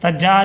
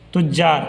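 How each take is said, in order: First: The first vowel is a short a. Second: The first vowel is a short u. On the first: The speaker calls it wrong. "तज्जार या तिज्जार पढ़िएगा या तिजार पढ़िएगा तो गलत है" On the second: The speaker calls it right. "ता पर पेश के साथ"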